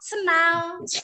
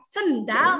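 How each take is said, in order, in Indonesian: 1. Bunyi d di tengah dihilangkan. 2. Bunyi d di tengah diucapkan. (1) "kalau orang Sunda kalau bilang sendal suka senal. Nah, nah itu tidak jelas ya" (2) "ketika sendal dibilang sendal, nah, itu baru memakai artikulasi"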